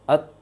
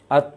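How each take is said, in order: First: The t ends with a small, clear puff. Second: The t ends with a strong, heavy puff. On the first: The speaker calls it right. "Lebih jelas anginnya daripada uh, ketika berharokat" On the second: The speaker calls it wrong. "Yang salah apa? Terlalu besar"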